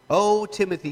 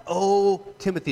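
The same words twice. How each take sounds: First: O Timothy called out loud and high; loud emphatic O; emphatic cry. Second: O Timothy cried out loud and high; a cry out to Timothy; loud emphatic O Timothy. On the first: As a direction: cry out O Timothy with full push. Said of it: "I don't want us to miss the emphasis on that". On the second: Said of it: "This has emphasis on it". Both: Shown as a demonstration.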